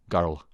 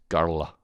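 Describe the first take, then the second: First: The word is said with two syllables. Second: The same.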